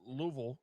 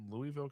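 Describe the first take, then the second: First: It is pronounced the way locals say it. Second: It is pronounced the way outsiders say it. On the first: The speaker calls it right. "as they say down there. You got to say it right" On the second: The speaker calls it wrong. "I'm from Indiana"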